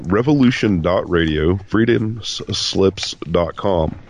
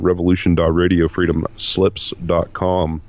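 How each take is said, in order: First: It is said slowly. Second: It is said fast.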